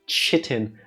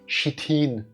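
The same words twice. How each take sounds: First: The word is said with an English pronunciation. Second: The word is said with a German pronunciation. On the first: "I don't know how to pronounce it in English" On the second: "if we're speaking German"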